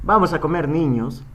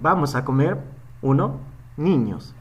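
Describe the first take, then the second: First: It runs on with no pause before niños. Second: There is a pause before niños. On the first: We are going to eat children. "no es lo mismo decir" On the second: The children are being invited to come and eat. "cuenten ustedes mentalmente uno"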